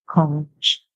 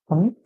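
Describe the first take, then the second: First: The word ends with a ch sound. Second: The word ends with a k sound. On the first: "in British English" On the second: "in American English"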